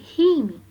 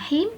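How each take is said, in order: First: The syllable ends with a short final vowel. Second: The syllable ends on the consonant, no final vowel. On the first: The word is joined to what follows. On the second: The reciter stops at this word.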